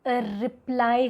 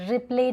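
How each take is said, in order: First: The word ends with an 'eye' vowel. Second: The word ends with an 'ay' vowel. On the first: The speaker calls it right. "रिप्लाई होता है" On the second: The speaker calls it wrong. "रिप्ले नहीं होता है ना"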